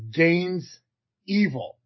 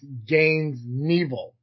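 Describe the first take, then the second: First: The surname begins with a vowel sound. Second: The surname begins with an N sound. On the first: The speaker calls it wrong. "I thought it was Gaines Evil" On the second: The speaker calls it right. "but it's Gaines Neville, like Evil Knievel"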